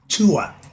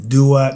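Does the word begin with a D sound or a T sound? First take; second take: T sound; D sound. First: The word begins with a T sound. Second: The word begins with a D sound. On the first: The speaker calls it right. "it's spelled with the T, the D and the T sound" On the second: The speaker calls it wrong. "spelled D U A T, so they would think to say the Duat. No"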